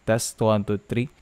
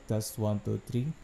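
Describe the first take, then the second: First: The voice is close and sounds full. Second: The voice comes from behind and sounds muffled. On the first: "malapit lang buong buo yung boses" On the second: "Speaking at the back, about three inches away"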